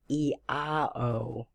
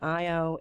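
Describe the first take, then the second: First: The name starts with an 'ee' sound. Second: The name starts with an 'eye' sound. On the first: The speaker calls it right. "it's the E A O" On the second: The speaker calls it wrong. "it's not I O"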